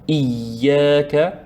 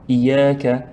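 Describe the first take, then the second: First: The y sound is doubled and held longer. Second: The y sound is short and single. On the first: The speaker calls it right. "On voit ici shadda. Donc, c'est pour appuyer un petit peu" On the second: The speaker calls it wrong. "ce n'est pas iyaka"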